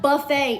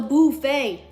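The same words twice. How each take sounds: First: The first syllable has a plain 'uh' vowel. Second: The first syllable has an 'oo' vowel. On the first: The speaker calls it wrong. "It's not buffet" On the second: The speaker calls it right. "It's called the buffet. B O O F E T"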